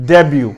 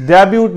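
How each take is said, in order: First: "ڈیبیو" ending on an open yoo, t silent; correct pronunciation. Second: "ڈیبیوٹ" with the final t sounded; wrong pronunciation. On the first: Teacher demonstrating debut for learners, correct pronunciation. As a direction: let "ڈیبیو" fall away without a t. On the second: Teacher quoting the misreading of debut, wrong pronunciation. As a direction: close "ڈیبیوٹ" on an audible t. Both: Shown as a demonstration. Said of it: "یہ ٹی اس میں silent ہے".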